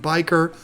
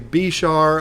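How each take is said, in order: First: The word sounds like 'biker'. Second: The word sounds like 'bishar'. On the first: This is the speaker's own way of saying it. "I pronounce it biker" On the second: This is how some other people say it. "Some people say bishar"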